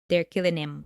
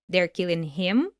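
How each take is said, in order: First: The H in "him" is dropped. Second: The H in "him" is pronounced. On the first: "she drops the H in him" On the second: "instead of"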